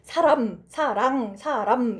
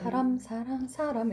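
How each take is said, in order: First: Each word is articulated crisply and clearly distinct. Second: The words are blurred to sound nearly the same. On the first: "되게 또박또박 사람 사랑 사람 이렇게 또박또박 이제 구분이 딱 되도록 발음을" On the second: "최대한 비슷하게 발음하려고 하는 게 있어요. 사람 사랑 사람 약간 이러면서"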